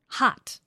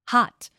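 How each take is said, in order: No difference in how they are said.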